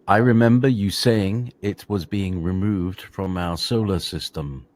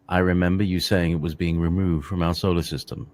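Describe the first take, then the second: First: It is read more slowly. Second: It is read at normal speed.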